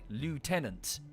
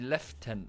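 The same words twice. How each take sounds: First: It is said with an American pronunciation. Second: It is said with a British pronunciation. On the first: The speaker calls it wrong. "the Americans have pronounced it phonetically" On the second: The speaker calls it right. "When it's actually lieutenant"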